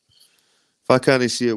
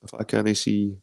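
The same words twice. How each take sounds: First: Slow, stressing "I" in "if I can't see it". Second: Said in the usual way. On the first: Shown as a demonstration. Streamer insisting to viewers, slow stress on "I". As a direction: lean slowly on "I" in "if I can't see it".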